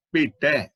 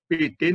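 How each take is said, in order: First: ਭੇਟੈ with an open final ai vowel, like bheṭɛ; correct pronunciation. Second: ਭੇਟੇ said with a closed final e, like bheṭe; wrong pronunciation. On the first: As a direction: end ਭੇਟੈ on the open ai sound, not a closed e. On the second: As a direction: show the mistake, ending ਭੇਟੇ on a plain closed e. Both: Shown as a demonstration. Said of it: "ਭੇਟੇ ਨਹੀਂ ਪੜਨਾ".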